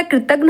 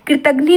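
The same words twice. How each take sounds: First: Said in the usual way. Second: कृतघ्नि ending in -ghni; wrong form. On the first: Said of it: "कृतघ्न होता है". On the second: Shown as a demonstration. Teacher rejects a misspelling, कृतघ्नि ending in ee. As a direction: add an ee sound to end कृतघ्नि. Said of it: "कृतघ्नि नहीं होता".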